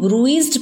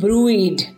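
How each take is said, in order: First: The word is said with a z sound. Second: The word is said without a z sound. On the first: "इसको हम ब्रूइज्ड भी बोलते हैं" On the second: "इसमें S silent करके भी कुछ लोग बोलते हैं"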